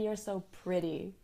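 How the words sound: The T in pretty is a quick flap. The speaker calls it right. "We say"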